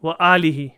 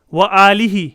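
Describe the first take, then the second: First: Said in the usual way. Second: وآلہ called out loud, drawn out as wa-aalihi; loud classroom reading of وآلہ; emphatic recitation. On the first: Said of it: "repeats verse word calmly". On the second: Shown as a demonstration. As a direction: announce the verse word وآلہ loudly and clearly. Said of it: "reads verse word emphatically".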